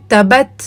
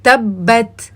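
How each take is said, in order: First: تبت with the doubled b rushed, no held stop before it; تبت read as tabat, single b; mistaken reading. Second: تبت with the b held and doubled, a clear stop before releasing it; تبت read tabbat with the shadda fully sounded; correct reading. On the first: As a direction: say تبت the way students wrongly do, skipping the pause on the shadda. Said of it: "اس کو وہ پڑھتے ہیں". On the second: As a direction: say تبت as tab-bat, lingering on the first b. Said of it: "آپ نے اس کو پڑھنا ہے". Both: Shown as a demonstration.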